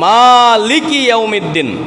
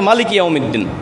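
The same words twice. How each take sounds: First: The first vowel of maliki is drawn out long. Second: The first vowel of maliki is kept short. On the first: "যেমন আমরা পড়ি" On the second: "বেগাইরিল মাদ, টান বাদে"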